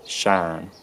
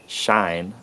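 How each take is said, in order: First: "shan" as Southern US "shine", one long "ah" vowel without glide; Southern US monophthong. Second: "shine" in a Southern US accent with only a slight glide; Southern US slight diphthong. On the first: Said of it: "it's totally monophthongized again". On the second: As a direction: say "shine" like a US Southerner, the I barely gliding. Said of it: "it's a slight diphthong". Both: Shown as a demonstration.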